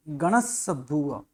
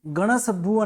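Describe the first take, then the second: First: गणसभुव with a held double s, ganas-sabhuv; slow गणसभुव, hold the doubled s; correct double s. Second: गणसभुव with a single short s; गणसभुव rushed with one s, the mistake; wrong ganasabhuv. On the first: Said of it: "double स है". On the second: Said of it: "गणसभुव नहीं". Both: Shown as a demonstration.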